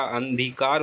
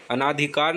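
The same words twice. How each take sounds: First: अंधिकार said as "an-dhikaar", no long aa; correct pronunciation. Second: अनाधिकार said as "a-naa-dhikaar"; wrong pronunciation. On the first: Teacher correcting the word to अंधिकार, said "andhikaar". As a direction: run n straight into dh in अंधिकार. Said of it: "अंधिकार होता है". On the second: Teacher showing the mistaken अनाधिकार, said as "anaadhikaar". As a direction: sound a full naa in अनाधिकार. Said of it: "अनाधिकार नहीं होता". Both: Shown as a demonstration.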